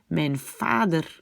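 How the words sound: The v in vader sounds like an f.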